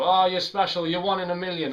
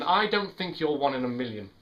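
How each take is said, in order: First: Higher, mildly hammed-up flattery; mock gushing. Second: Said in the usual way. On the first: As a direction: imitate someone paying a gushy compliment. Mimics a gushing compliment.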